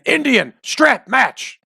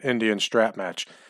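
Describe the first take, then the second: First: The phrase is yelled out loudly. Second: The phrase is said at normal volume.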